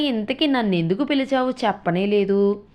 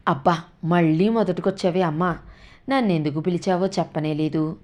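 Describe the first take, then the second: First: Raised, pressing question; impatient question. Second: Weary annoyance. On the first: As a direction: demand an answer, keyed up. Son asks impatiently. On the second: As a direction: sigh it out, fed up. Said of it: "మళ్ళీ విసుక్కున్నాడు". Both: A narrator's reading.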